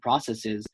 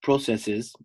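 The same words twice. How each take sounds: First: "processes" with an open "prah" first syllable; American pronunciation. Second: "processes" slowly with a long O, PRO-; Canadian pronunciation. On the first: Host recaps notes to guest, American "processes". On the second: Host corrects himself for Canadians, slow long-O "processes". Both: Shown as a demonstration. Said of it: "we should talk in Canadian accents".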